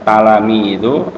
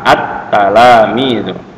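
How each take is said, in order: First: The word starts directly with a 't' sound. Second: The word starts with an 'a' vowel sound. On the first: The speaker calls it wrong. "berarti ada yang ditinggal" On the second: The speaker calls it right. "Jadi bacanya jangan talamidu tapi ditambah a"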